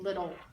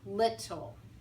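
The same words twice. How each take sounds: First: The middle consonant is a soft D-like sound. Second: The middle consonant is a strong, held T. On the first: "we actually use the D sound" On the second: "they emphasize the lit"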